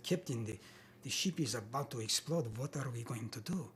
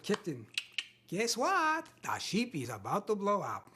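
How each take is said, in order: First: Put-on low, earnest Russian accent; serious Russian-accented reading. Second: Put-on comic Russian accent, leaping high on "guess what"; funny Russian-accented reading. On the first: Actor auditioning a very serious scene, grave Russian accent. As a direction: read it gravely in a Russian accent, lower than usual. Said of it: "what I thought was, you know, a riveting performance". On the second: Actor redoing the audition line to be funny, comic Russian accent. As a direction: play the disaster for laughs as a chirpy Russian. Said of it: "could you make it funny?".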